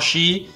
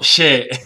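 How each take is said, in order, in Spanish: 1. Se pronuncia como la palabra inglesa. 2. No se pronuncia como la palabra inglesa. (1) "le dije She pensando que era S-H-E de inglés" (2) "se pronuncia She"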